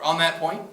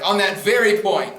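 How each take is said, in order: First: Said in the usual way. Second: "On that very point" slow and louder, leaning on "very"; pompous, emphatic point of information. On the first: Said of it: "very popular one". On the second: Shown as a demonstration. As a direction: stress "very" hard and draw it out. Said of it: "or if you're really emphatic".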